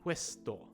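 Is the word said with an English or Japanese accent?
Japanese. Said with a Japanese accent and extra vowels. The speaker calls it wrong. "instead of"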